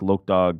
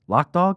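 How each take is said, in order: First: The first vowel is a long 'oh' sound. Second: The first vowel is a short 'o' sound. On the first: The speaker calls it wrong. "Is it Loke or Lock?" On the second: The speaker calls it right. "He said Lock Dog"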